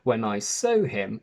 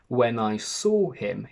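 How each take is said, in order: First: Saw and so have nearly the same vowel. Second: Saw and so have clearly different vowels. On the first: The speaker calls it wrong. "and not" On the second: The speaker calls it right. "we need to say"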